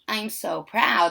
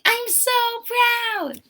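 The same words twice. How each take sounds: First: It is said in a flat, plain way. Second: It is said in an excited, emphatic way.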